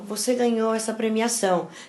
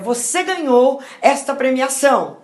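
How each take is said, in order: First: It is said in a sorrowful, gloomy tone. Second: It is said in a cheerful, happy tone. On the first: The winner feels they should apologize for winning. The speaker calls it wrong. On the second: The good news is celebrated. The speaker calls it right.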